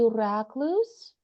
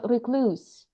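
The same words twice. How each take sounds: First: Recluse with the first syllable like "rack"; British pronunciation. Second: Recluse stressed on the second syllable; alternative pronunciation. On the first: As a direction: say recluse as RACK-loos, rising at the end. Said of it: "in Britain, they would say". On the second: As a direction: say recluse as ri-KLOOS. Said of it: "they would say recluse or recluse". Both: Shown as a demonstration.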